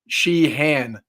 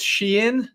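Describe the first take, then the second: First: It is said the Southern Texas way. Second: It is said without a Texas accent.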